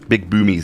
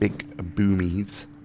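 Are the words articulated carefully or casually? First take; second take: casually; carefully. First: The words are said casually, not carefully articulated. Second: The words are said with careful, deliberate articulation. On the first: "That almost sounded like something else" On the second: "Make sure I articulate my words properly"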